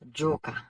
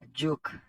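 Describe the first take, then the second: First: The word ends in a vowel sound. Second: The word ends in a consonant sound. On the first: The speaker calls it right. "c'est pas joke, c'est joka" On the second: The speaker calls it wrong. "toujours mal prononcé. En pile haïtien dit, joke"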